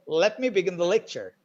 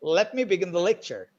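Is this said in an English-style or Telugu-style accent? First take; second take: English-style; English-style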